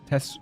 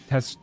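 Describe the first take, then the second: Both takes have the same delivery.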